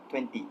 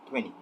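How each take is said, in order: First: The t sound in twenty is pronounced. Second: The t sound in twenty is dropped. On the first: "did not omit the t sound and pronounced it com completely as" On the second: "instead of"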